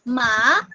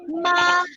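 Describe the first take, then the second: First: The pitch rises toward the end. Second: The pitch stays level and high. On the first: It means numb. "the second tone is going up" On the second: It means mother. "it is in the first tone"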